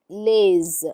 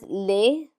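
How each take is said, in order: First: The word ends with a z sound. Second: The word ends on a plain vowel sound. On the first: "and then lays" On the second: "One is lay"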